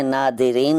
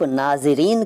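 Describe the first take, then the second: First: नादिरीन with d replacing z. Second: Said in the usual way. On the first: Shown as a demonstration. Teacher showing what is not said, नादिरीन with d for z. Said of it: "नहीं कहते". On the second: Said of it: "नादिरीन नहीं कहते".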